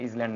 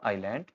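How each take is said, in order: First: A z sound is heard before the l. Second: No z sound is heard before the l. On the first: The speaker calls it wrong. "ये इजलैंड नहीं है" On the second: The speaker calls it right. "ये है आपका आइलैंड"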